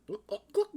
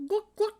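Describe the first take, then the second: First: High hen clucking; chicken clucking. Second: Squawking hen cluck; higher chicken clucking. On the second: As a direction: cluck even higher and louder. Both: Acted. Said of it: "like a chicken".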